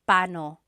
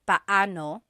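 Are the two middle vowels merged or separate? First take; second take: merged; separate. First: The two middle vowels run together into one syllable. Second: The two middle vowels are said as separate syllables. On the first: "But when speaking quickly, Filipinos just say paano" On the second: "when there are two vowels together, you say them separately"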